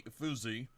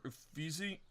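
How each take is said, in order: First: Efuzi with a long "oo" in the middle, "eh-FOO-zee"; unsure pronunciation. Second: Uffizi with a long "ee" in the middle, "uh-FEE-zee", rising; questioning pronunciation. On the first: Player guessing at an Italian wonder's name, Efuzi said "eh-FOO-zee". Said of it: "I can't claim to speak Italian". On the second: Player doubting his Italian, Uffizi said as a questioning "uh-FEE-zee". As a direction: try out Uffizi softly as a higher question. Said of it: "I don't know". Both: Real, not acted.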